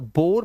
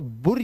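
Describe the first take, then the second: First: The vowel is a single oh sound. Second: The vowel is a single short u. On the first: "अब इसे बुर या बोर मत पढ़ लेना" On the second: "अब इसे बुर या बोर मत पढ़ लेना"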